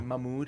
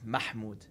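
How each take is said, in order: First: The middle H sound is left out. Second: The middle H sound is clearly pronounced. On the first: The speaker calls it wrong. "I always say Mahmoud because I skipped the H" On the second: The speaker calls it right. "but it's Mahmoud"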